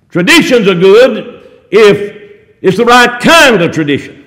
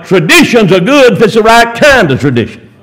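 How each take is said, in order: First: Slow "Traditions are good", pausing round "if"; emphatic slow repeat. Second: Said in the usual way. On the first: Real, not acted. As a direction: spell it out slowly, leaning on "kind", then drop away on "of tradition".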